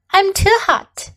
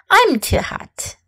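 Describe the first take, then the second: First: Said in the usual way. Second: Put-on breathy whisper of a hot tired child. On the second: Shown as a demonstration. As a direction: whisper it as if worn out by the heat. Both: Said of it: "let's practice some sentences".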